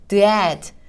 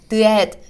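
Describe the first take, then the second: First: The sounds are split apart with a break. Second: The sounds are split apart with a break.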